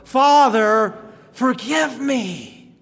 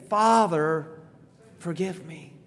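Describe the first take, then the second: First: The phrase is said loudly. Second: The phrase is said at normal volume. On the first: "Let's say it louder" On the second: "Let's say it again"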